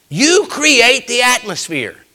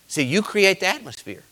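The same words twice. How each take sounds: First: You stretched out slow, high and loud; preached hard. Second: Said in the usual way. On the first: Shown as a demonstration. Pastor hammering the refrain home to his church. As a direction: hammer "You create the atmosphere" slowly. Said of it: "repeated, slow loud preached". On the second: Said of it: "repeated line, louder take".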